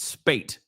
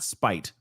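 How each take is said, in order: First: The vowel sounds like the one in 'late'. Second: The vowel sounds like the one in 'height'. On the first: The speaker calls it right. "it's Spate" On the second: The speaker calls it wrong. "not Spite. You know, because it looks like height"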